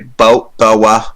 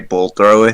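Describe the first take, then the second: First: It is said in a British accent. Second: It is said in a plain American accent.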